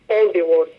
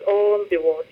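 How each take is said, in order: Both takes have the same delivery.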